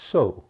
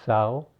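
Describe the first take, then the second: First: Sow said like so; rhymes with go. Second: Sow said like the female pig, sau; rhymes with cow. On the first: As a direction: say sow with a long o, as in planting seed. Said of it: "but it's sow". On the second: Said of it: "looks like sow, but it's sow". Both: Shown as a demonstration.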